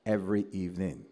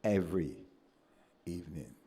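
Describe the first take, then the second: First: Said in the usual way. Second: "every" and "evening" split by a pause, each word weighed; stress on every evening. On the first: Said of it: "I mean, every evening". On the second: Real, not acted. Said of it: "I mean".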